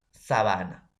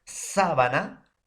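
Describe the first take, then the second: First: "sabana" más grave, con golpe en BA; acento llano. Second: "sábana" lenta y aguda, con golpe en SÁ; acento esdrújulo. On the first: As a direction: di sa-BA-na cayendo al final. ("sabana" acentuada en la penúltima sílaba) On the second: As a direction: alarga la primera sílaba de "sábana". ("sábana" acentuada en la primera sílaba, despacio) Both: Shown as a demonstration. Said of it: "La pronunciación".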